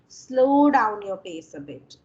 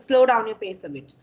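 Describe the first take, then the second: First: It is said slowly and clearly. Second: It is said fast and rushed.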